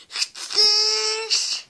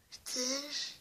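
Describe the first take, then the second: First: High, loud shouted dare; teddy bellowing the threat; loud taunt. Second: Quiet rising dare; hushed mock dare; soft taunt. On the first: Pretend. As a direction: yell the dare. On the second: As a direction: ask it softly, almost kindly. Teddy taunting viewer.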